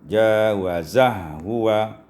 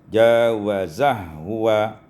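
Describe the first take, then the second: First: The two h sounds merge into one. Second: The same.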